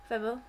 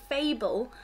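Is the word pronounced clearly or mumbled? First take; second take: mumbled; clearly. First: The word is mumbled and unclear. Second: The word is pronounced clearly and fully. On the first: "I mumble a lot" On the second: "I don't say fable"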